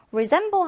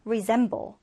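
First: Said in the usual way. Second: Resemble with the stress on -sem-, re- kept light; re-SEM-ble, the second syllable stressed. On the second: Shown as a demonstration. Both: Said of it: "두 번째 음절의 강세를 두고요".

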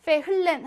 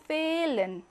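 First: "페 흘렌" with the H sounded; H pronounced. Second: "페일렌" with a long E and no H; German "페일렌", H silent, E drawn out; silent H, long vowel. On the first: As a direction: say "페 흘렌", breaking in an audible H. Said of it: "하지 않고". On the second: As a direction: stretch the first vowel of "페일렌". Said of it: "모음을 길게 만들어줍니다". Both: Shown as a demonstration.

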